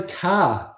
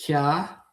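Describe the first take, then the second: First: Said in the usual way. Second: "Car" said in a mock New York accent. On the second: Shown as a demonstration. Streamer trying out a word for chat, mock New York accent. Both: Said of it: "That's a New York thing".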